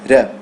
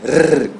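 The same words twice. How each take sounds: First: The R is a single light tap. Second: The R is a strong rolled trill. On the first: The speaker calls it right. "É só um R, R" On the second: The speaker calls it wrong. "Não é um R forte, R, que nem um espanhol"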